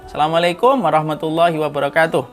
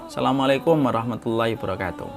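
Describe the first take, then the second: First: The greeting is said louder. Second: The greeting is said at normal volume.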